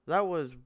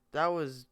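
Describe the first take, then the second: No difference in how they are said.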